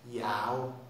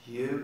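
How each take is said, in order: First: It is said with a Birmingham 'yow' vowel. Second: It is said with a plain standard vowel.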